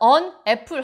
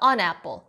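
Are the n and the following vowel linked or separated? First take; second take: separated; linked. First: The two words are said separately, not linked. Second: The n runs straight into the following vowel. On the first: The speaker calls it wrong. "on apple 하지 마시고" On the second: The speaker calls it right. "n과 뒤에 있는 a를 붙여서 연음시켜서"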